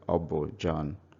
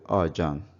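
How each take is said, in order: First: The b sound is clearly pronounced in full. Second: The b sound is dropped and the vowels merge. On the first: It is formal, church-style speech. "maybe pastors in the church who want to speak very formally, we say" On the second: It is normal everyday conversation. "But normal everyday conversation, you say"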